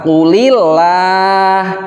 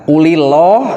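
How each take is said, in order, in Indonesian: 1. Huruf 'l' pada Allah dibaca tipis. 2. Huruf 'l' pada Allah dibaca tebal. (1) "yang benar itu cara pembacaannya adalah Qulillah" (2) "itu dia ya ngajinya ya belum belum belum ngaji tajwid gitu"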